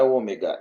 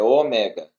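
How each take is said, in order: First: "ômega" with a closed E, as in everyday Ômega; wrong stress. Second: "ômega" said oMÉga, with an open stressed E. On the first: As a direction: say "ômega" the common way, E not opened. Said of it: "não é ômega". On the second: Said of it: "a forma correta de pronunciar". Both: Shown as a demonstration.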